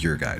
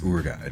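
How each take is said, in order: First: The first part sounds like 'your'. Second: The first part sounds like 'oor'. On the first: The speaker calls it wrong. "I don't think it's your guide" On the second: The speaker calls it right. "It's Ur guide, right?"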